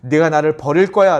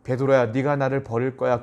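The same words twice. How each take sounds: First: Louder, accusing delivery; mock reproach, pushed out hard; reproachful. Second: Gentle, unaccusing warning; concerned and tender, held back; worried, loving. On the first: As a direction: rebuke someone who will betray you. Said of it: "베드로를 책망하듯이". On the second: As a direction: break hard news to someone you love. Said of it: "이 얘기를 걱정스러운 마음으로". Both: Shown as a demonstration.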